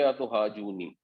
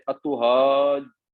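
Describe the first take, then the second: First: اتحاجونی run together quickly, the doubled letter not held; common mispronunciation. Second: اتحاجونی very slow, the doubled letter said twice; correct tajweed. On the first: Teacher shows the wrong reading, run together quickly. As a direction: say اتحاجونی the careless way, skipping the shadda. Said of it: "اسے پڑھیں گے اتحاجونی". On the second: Teacher models the right reading, very slowly and carefully. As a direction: draw out اتحاجونی, syllable by syllable with the shadda sounded. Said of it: "اب یہ اتحاجونی نہیں ہے". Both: Shown as a demonstration.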